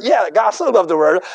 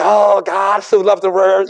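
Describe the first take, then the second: First: "so" lifted with a rising tune, quicker pace; stress on so. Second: Quoting many men. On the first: Shown as a demonstration. Preacher answering the common saying, stressing "so". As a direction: agree but lean on the word "so". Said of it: "But I tell you". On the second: Retold or imitated. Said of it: "Many men say".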